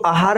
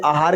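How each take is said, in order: First: आहार said as "ahaar", short opening a; wrong short vowel. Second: आहार said as "aahaar", long opening aa; correct long vowel. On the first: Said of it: "ये अशुद्ध है". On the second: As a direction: open आहार on a full long "aa". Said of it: "आहार का सही रूप होता है". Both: Shown as a demonstration.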